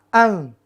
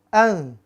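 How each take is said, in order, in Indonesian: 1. Huruf n samar, tertahan di hidung. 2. Huruf n samar, tertahan di hidung.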